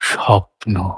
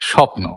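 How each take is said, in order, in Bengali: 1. শব্দটি নরম ভাবে, একটা স্বপ্নালু অনুভূতি নিয়ে বলা হয়েছে। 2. শব্দটি সাদামাটা, সহজ ভাবে বলা হয়েছে। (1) "আমার কাছে স্বপ্নের অনুভব স্বপ্ন" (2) "কিন্তু স্বপ্ন তো এরকম নয়।"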